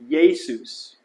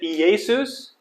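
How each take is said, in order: First: The first two vowels merge into one 'ye' syllable. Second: The first two vowels are said as separate syllables. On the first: The speaker calls it right. "we pronounce it Ye, ... we don't pronounce each vowel separately" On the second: The speaker calls it wrong. "Is it Jesus? No"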